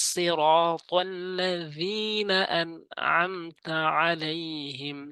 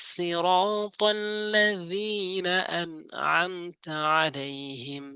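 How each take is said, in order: Both takes have the same delivery.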